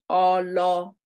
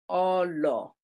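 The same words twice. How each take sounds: First: The pitch rises on both vowels. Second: The pitch falls on both vowels. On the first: "both rising" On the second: "an example of falling one for all would be Olo"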